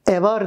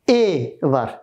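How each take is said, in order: First: The first vowel is open, with the mouth wide. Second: The first vowel is narrow, with the lips spread. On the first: The speaker calls it wrong. "e var değil" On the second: The speaker calls it right. "E dediğimizde yana yayılır ve ağız az açılır"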